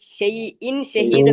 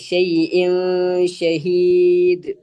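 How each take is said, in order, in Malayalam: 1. sh-ന് മുമ്പുള്ള n ശബ്ദം വ്യക്തമായി ഉച്ചരിക്കുന്നു. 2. n ശബ്ദം മറഞ്ഞ് sh-യിൽ ലയിക്കുന്നു. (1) "എന്നല്ല" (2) "ആ അതെ"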